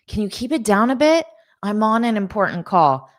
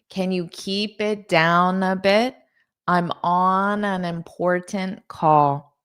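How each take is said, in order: First: The sentence sounds a little frustrated. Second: The sentence sounds calm and neutral.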